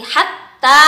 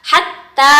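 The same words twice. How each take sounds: No difference in how they are said.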